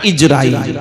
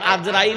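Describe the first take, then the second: First: The name begins with an 'i' vowel. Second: The name begins with an 'a' vowel. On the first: The speaker calls it right. "সঠিক নাম কি? হযরত ইজরাইল" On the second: The speaker calls it wrong. "আজরাইল নয়"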